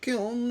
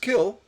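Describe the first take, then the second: First: The word ends with an audible n sound. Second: The word ends without an n sound. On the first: The speaker calls it wrong. "not kiln uh, with an N" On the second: The speaker calls it right. "it's pronounced kill"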